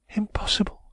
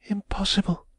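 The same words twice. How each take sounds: First: Impossible breathed in a high whisper; whispered refusal. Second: Impossible said aloud, high and falling; repeated refusal. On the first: Woman whispering Impossible to Raymond while watching the door. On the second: Woman firmly repeating Impossible to Raymond, high and voiced. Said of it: "she reiterated". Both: A narrator's reading.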